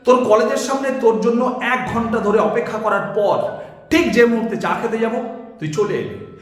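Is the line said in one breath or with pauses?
with pauses. The line is said with two pauses.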